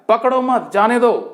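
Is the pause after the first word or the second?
second. The pause comes after मत.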